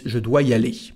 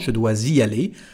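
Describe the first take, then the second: First: No Z sound is heard after dois. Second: A Z sound links dois to the next word. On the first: "But again, in France, what we say is" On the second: "there is a S, so you can say it if you want"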